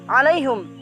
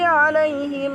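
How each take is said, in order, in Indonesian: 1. Kata itu berakhir dengan hum pendek. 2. Kata itu berakhir dengan him pendek.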